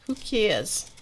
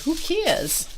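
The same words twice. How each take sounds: First: It is said in a strong New York accent. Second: It is said in a plain, neutral accent.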